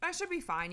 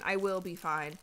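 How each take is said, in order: First: Said in the usual way. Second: Will said firmly, fine falling; stress on will. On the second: Shown as a demonstration. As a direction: lean on the word will. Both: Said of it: "not I should be fine".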